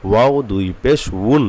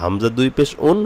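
First: "উন" begun with rounded w, as "wun"; wau sound. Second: "উন" begun on a bare vowel, no w glide; hamza sound. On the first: Teacher drilling a sound many miss, "উন" as "wun". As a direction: round into a clear w at the start of "উন". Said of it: "এটা অনেকেরই হয় না". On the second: Teacher contrasting hamza with wau, glide-free "উন". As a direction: start "উন" straight on the vowel u. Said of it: "ওয়াওটা আমরা হামজা বলে ফেলি". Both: Shown as a demonstration.

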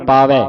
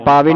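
First: Loud ਪਾਵੈ ending on a wide ai; open AI ending. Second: ਪਾਵੇ ending on a narrow e; closed E ending. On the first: Teacher models the correct ending, ਪਾਵੈ with open "ai". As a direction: say ਪਾਵੈ as "paa-vai". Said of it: "ਦਲਾਵਾਂ ਲੱਗੀਆਂ". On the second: Teacher warns students off the misreading, ਪਾਵੇ with closed "e". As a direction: say ਪਾਵੇ as "paa-vey". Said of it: "ਪਾਵੇ ਨਹੀਂ ਪੜਨਾ". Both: Shown as a demonstration.

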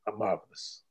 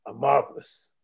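First: Lower, softer closing murmur; fading soft. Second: Said in the usual way. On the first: Acted. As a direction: let the last word die away. Final refrain fades out.

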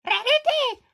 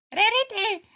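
First: High, loud shout of her name. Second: Louder call for a friend. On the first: Locked out, yelling at Rarity's window, loud shout. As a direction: yell it up at the window. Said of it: "Já zakřičím před své okno". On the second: Locked out pony calling Rarity by name, loud. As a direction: call her name toward the house. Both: Pretend.

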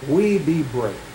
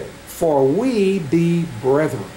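First: Said in the usual way. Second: "we" drawn out slowly and stressed. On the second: Shown as a demonstration. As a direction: lean on "we" in "For we be brethren".

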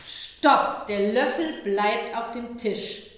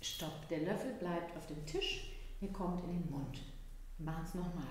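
First: Lautes Stopp, dann langsam und bestimmt; „Stopp!“ laut setzen, „Der Löffel bleibt auf dem Tisch“ langsam und fest; klares Stopp. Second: Leise, langsam und bestimmt; „Stopp“ ruhig und gedehnt, ohne Schärfe; ruhiges Stopp. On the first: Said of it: "ich habe ja ziemlich klar Stopp gesagt". (Mutter setzt dem Kind eine klare Grenze, laut und langsam) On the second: Mutter wiederholt Grenze ruhig. (Mutter erklärt dem Kind leise die Regel) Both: Shown as a demonstration.

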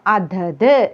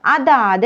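First: അതത് with short vowels; corrected pronunciation. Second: അതാത് with a long middle vowel; wrong pronunciation. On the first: Teacher telling learners how to say it, short അതത്. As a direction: say അതത് as "athath", no lengthening. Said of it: "എന്നാണ് പറയേണ്ടത്". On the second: Teacher showing the form to avoid, long vowel in അതാത്. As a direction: say അതാത് as "athaath". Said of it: "എന്നതല്ല". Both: Shown as a demonstration.

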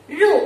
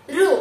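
First: ऋ said deliberately as "ru", a planted mistake; wrong ru sound. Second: ऋ said properly as "ri"; correct ri sound. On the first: Teacher to class, planting a mistake for them to spot, ऋ said as "ru". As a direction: say ऋ as "ru" on purpose. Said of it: "एक अक्षर का उच्चारण गलत बोली हूँ". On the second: Teacher to class, showing the right way, ऋ said as "ri". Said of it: "हम तो इस अक्षर को री कहना है". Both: Shown as a demonstration.

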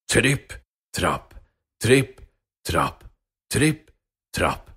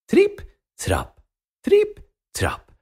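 First: Low, heavy tripp trapp; slow ponderous big-goat steps; low heavy footsteps. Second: High, tiny tripp trapp; dainty little-goat steps on the bridge; high light footsteps. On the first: Biggest goat crossing the bridge. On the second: Smallest goat crossing the bridge. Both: Acted.

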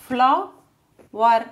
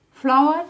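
First: Flower split as flo-wer; two separate beats for Flower; syllable by syllable. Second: Said in the usual way. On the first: Shown as a demonstration. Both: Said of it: "how to divide words".

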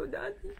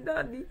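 First: Tearful call. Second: Louder, falling call to her father; firm tearful call. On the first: Daughter at her father's hospital bed, high tearful call. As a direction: call out to him, close to tears. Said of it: "Sabi ko". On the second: Daughter with nothing else to say, louder falling call. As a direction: say his name firmly through tears. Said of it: "Wala akong nasabi kundi". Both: Retold or imitated.

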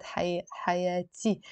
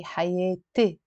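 First: حياتي said hayati with open a; song-style a vowel. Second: حياتي said hayete with e sounds; Lebanese e vowel. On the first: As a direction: open a in حياتي as the singer does. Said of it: "In the song, he said". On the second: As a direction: turn the alif of حياتي into an e. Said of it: "I say". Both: Shown as a demonstration.

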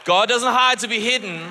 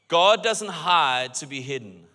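First: Louder, punching hide; louder repeat. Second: Slow and deliberate, weight on God; slow emphatic statement. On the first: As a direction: hammer the key line home. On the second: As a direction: lay each word down slowly. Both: Shown as a demonstration.

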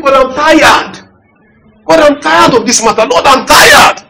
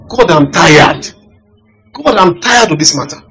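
First: Higher, pleading cry to God; plaintive prayer. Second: Said in the usual way. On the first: Retold or imitated. Pastor re-enacting his weary prayer to God. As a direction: beg God like a worn-out man. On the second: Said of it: "That was the prayer I started praying".

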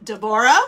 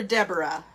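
First: Deborah said "deh-BOR-ah"; alternative pronunciation. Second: Deborah said "DEB-er-ah"; alternative pronunciation. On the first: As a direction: stress the middle of Deborah, "BOR". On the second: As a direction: stress the first syllable of Deborah, "DEB". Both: Shown as a demonstration. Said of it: "not sure if you pronounce it".

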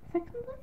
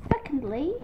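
First: High, soft, questioning "secondly"; self-questioning. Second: Said in the usual way. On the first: Real, not acted. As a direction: check the word "secondly" in a small high voice. Questions her own word choice.

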